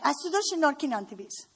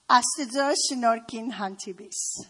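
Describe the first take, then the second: First: "Աստծո շնորհքին հանդիպիս" rattled off very fast, like a light scolding; Grandma's upset-sounding blessing. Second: Armenian phrase said quickly; Armenian blessing. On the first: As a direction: imitate Grandma snapping out the blessing at top speed. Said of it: "the way she would say it is like". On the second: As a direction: say the Armenian blessing at a brisk clip. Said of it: "how she would say it". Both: Retold or imitated.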